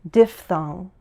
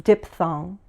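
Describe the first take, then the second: No difference in how they are said.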